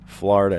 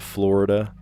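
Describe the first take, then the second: First: Florida is said with a Philadelphia-area regional pronunciation. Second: Florida is said with a standard pronunciation. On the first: "occasionally I'll say Florida too" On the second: "instead of Florida"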